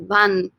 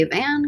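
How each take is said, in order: First: "van" with an open Spanish "ah"; Spanish vowel. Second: "van" like the English vehicle, with the vowel of "cat". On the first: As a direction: round out "van" as "bahn", in Spanish. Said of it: "your Spanish vowel sounds". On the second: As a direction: mispronounce "van" with an English short A. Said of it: "Please don't say van". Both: Shown as a demonstration.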